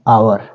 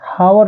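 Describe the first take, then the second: First: The word begins with a vowel, no h sound. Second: The word begins with an audible h sound. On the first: The speaker calls it right. "ये है आवर" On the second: The speaker calls it wrong. "यहाँ पर हावर नहीं है बेटा"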